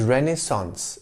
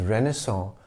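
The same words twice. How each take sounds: First: The word ends with a clear s sound. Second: The word ends in a nasal vowel, no s. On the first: The speaker calls it right. "The right pronunciation is Renaissance in English" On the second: The speaker calls it wrong. "mispronounced as Renaissance with a nasal vowel sound at the end"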